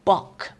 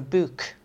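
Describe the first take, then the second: First: "bock" for book, with the London vowel; London pronunciation of book. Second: Said in the usual way. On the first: Retold or imitated. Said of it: "how they used to say". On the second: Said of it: "they used to say "bock" for a book".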